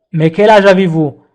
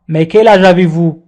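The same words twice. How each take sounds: The two takes are said the same way.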